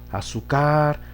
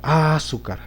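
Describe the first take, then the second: First: The stress is on the last syllable. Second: The stress is on the first syllable. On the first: "En la car, no se puede" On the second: "en la A"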